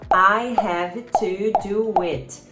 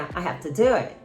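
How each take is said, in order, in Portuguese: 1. Cada palavra é dita completa e separadamente. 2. As palavras são reduzidas e ditas juntas. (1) "Ou então" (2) "Não, é"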